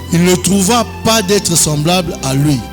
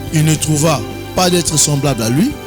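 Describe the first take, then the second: The two takes are said the same way.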